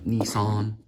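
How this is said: It is said with an American pronunciation. "which I think Americans call it"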